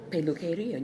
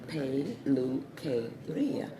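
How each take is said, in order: First: "peluqueria" said at normal speed, peh-loo-keh-REE-ah; Spanish word. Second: "peluqueria" drawn out slowly, peh-loo-keh-REE-ah; slow Spanish word. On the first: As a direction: say "peluqueria" in one go. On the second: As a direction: spell "peluqueria" out slowly, syllable by syllable. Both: Shown as a demonstration. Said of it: "you gotta say".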